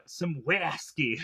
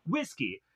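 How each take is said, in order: First: Put-on drawled accent slip on "whiskey"; slow, slipped-accent mock answer; Gus/character. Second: Said in the usual way. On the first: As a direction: stretch "whiskey" slowly toward "wasky". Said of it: "starts to sound like Gus".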